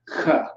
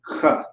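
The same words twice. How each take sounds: First: It starts with a hard throat 'k' sound. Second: It starts with a hard throat 'k' sound.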